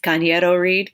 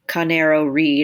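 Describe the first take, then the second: First: The surname is pronounced in a Spanish way. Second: The surname is pronounced in an anglicized way. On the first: The speaker is proud of the name's true pronunciation. The speaker calls it right. "she corrects her and says it's Cañero Reed" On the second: The name is mispronounced by someone unfamiliar with it. The speaker calls it wrong. "calls her Elena Canero Reed or something like that"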